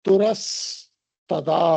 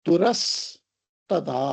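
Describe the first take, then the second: Both takes have the same delivery.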